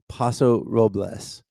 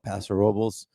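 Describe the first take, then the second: First: It is pronounced the way Los Angeles visitors say it. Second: It is pronounced the way local residents say it. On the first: This is how outsiders from the city say it. "the the people from L A call it Paso Robles" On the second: This is how people living there say it. "or as the locals call it"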